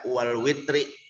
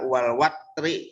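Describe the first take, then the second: First: The vowel after the w is an 'i'. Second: The vowel after the w is an 'a'. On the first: "dan kasrohnya" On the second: "dibaca dengan fathah wawu"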